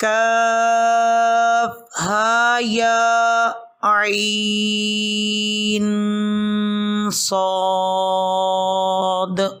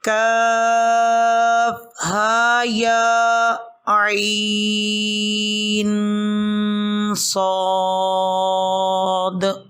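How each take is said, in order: First: It is read straight through in one breath. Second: It is read straight through in one breath.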